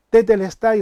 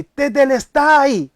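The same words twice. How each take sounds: First: Tetelestai called out a little louder, not full force; a half-voiced cry of triumph; mock victory shout. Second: Tetelestai cried out high, loud and slow; victory shout. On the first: Preacher showing Jesus' victory cry, a half shout. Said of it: "y lo grita así". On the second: Preacher acting out Jesus' cry of triumph, loud and drawn out. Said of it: "o sea, fuerte así". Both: Shown as a demonstration.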